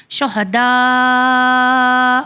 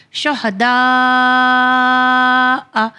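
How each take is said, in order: First: "شہداء" ending on a very long open aa; hamza dropped when stopping. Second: "شہداء" with very long aa, then hamza sounded; elongated recitation. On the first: Teacher showing the pausing form, long open vowel. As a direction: stretch the last vowel of "شہداء", no hamza after. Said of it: "تو اس طرح پڑھیں گے". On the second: Teacher introducing the word, long vowel with hamza. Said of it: "جو ہمارا اگلا ہے". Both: Shown as a demonstration.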